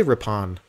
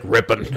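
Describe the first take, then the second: First: Rippon with an open "-PAHN" ending; classed-up pronunciation. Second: Rippon with a weak "-ən" ending; plain everyday pronunciation. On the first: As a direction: say Rippon fancily, as rip-PAHN. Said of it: "I'm probably classing it up". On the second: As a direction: say Rippon simply, as RIP-ən. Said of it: "it's not even. It's like Rippon". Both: Shown as a demonstration.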